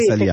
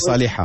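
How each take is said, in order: First: The name is said without the h sound. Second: The name is said with the h sound. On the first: This is how the name sounds in French. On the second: This is how the name sounds in Arabic.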